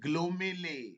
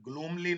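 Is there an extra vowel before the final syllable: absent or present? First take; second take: present; absent. First: The word has an "i" vowel before "ly". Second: The word has no vowel before the final "ly". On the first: The speaker calls it right. "Sound पे focus करो" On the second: The speaker calls it wrong. "ग्लूमली नहीं"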